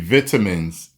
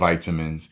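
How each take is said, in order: First: It is said with a British pronunciation. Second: It is said with an American pronunciation. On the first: "So you say" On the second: "instead of"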